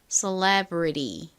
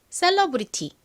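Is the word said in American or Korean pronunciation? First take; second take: American; Korean. First: It is said with American English sounds. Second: It is said with Korean-style syllables and sounds. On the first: "미국식으로는 셀러브리티가 아니라 celebrity처럼 발음이 됩니다" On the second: "한국식으로 읽어보면 셀러브리티입니다"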